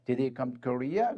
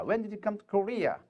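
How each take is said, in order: First: Very slow, Korea rises at the end; yes-no question with a rising end. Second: Very slow, voice falls at the end; wh-question read slowly, falling. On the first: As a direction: lift the tune on Korea. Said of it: "의문사가 없으면 뒤를 올려 읽습니다". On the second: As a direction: drop the tune on Korea. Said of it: "의문사가 있으면 뒤를 내려 읽습니다". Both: Shown as a demonstration.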